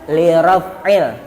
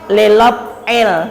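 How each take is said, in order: First: The middle consonant is a clear R sound. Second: The middle consonant is an L sound instead. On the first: The speaker calls it right. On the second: The speaker calls it wrong.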